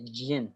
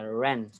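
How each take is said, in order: First: The word begins with a j sound. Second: The word begins with an r sound. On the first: The speaker calls it wrong. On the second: The speaker calls it right.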